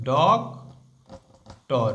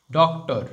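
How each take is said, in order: First: doctor split in two, ডক, long pause, টর; broken into syllables. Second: Said in the usual way. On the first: Shown as a demonstration. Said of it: "একে যদি ভাঙা হয় কি হবে". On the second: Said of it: "একে যদি ভাঙা হয়".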